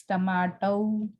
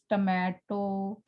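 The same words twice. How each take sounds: First: "tomato" in British style, long "ah" in the middle; British pronunciation. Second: "tomato" said the everyday Indian English way; Indian pronunciation. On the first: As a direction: say "tomato" as tuh-MAH-toh, British model. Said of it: "while it's tomato". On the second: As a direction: say "tomato" with a plain, unglided final o. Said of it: "that we pronounce tomato". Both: Shown as a demonstration.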